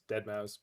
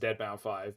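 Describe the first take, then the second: First: The name ends with the word "mouse". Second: The name ends with "mau" then "five". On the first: It is the usual way people say it. "the way that people usually pronounce that is Dead Mouse" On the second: It is said as a joke. "I almost always pronounce it as [name] because I think it's funny"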